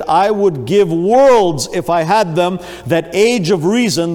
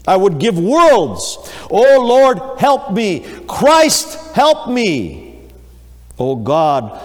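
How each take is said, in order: First: Slow and loud, stretching worlds out in despair; a preacher acting a dying man's despair; anguished deathbed plea. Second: Higher and louder, pleading in terror; desperate cry for help. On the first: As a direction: plead like a dying man full of regret. Dying infidel's anguished last words. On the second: Acted. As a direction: cry out like a man facing death. Dying man crying for help.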